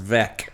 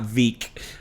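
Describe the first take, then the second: First: The name has a short vowel, like 'vec'. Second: The name has a long vowel, like 'veek'. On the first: The speaker calls it right. "my last name is pronounced Vec" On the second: The speaker calls it wrong. "and not"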